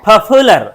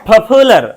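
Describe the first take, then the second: First: The p is aspirated, with a strong puff of air. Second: The same.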